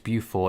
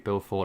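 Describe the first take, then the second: First: The name is said the British way. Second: The name is said the American way. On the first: "over here in British English" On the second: "it might be Beaufort over there"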